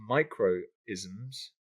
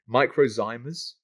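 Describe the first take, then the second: First: The word ends with an 'isms' sound. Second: The word ends with a 'zymas' sound. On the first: The speaker calls it wrong. "I'm sure I'm saying that wrong" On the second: The speaker calls it right. "yeah, that's better"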